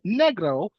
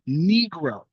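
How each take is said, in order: First: The word is said with a Spanish pronunciation. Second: The word is said with an English pronunciation. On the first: This is the original foreign form of the word. "instead of calling it negro" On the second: This is the form adapted into English. "they would anglicize it to become negro"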